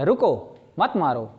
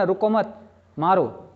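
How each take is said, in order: First: "रुको" alone, a break, then "मत मारो" said together; pause after रुको. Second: "रुको मत" said together, a break, then "मारो" alone; pause after मत. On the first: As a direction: stop briefly on रुको, join मत to मारो. ("रुको" के बाद छोटा विराम, फिर "मत मारो" साथ में) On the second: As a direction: join मत to रुको, pause briefly before मारो. ("रुको मत" के बाद छोटा विराम, फिर "मारो") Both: Shown as a demonstration. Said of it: "comma आएगा तो हम थोड़ा सा रुकते हैं".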